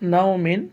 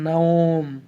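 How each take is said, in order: First: The word ends with a nasal 'in' syllable. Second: The word ends abruptly on the 'm' sound. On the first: The speaker calls it wrong. "মিম দুইজের মিন হবে কিন্তু নাও মিন" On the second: The speaker calls it right. "এভাবে পড়বেন নাওম"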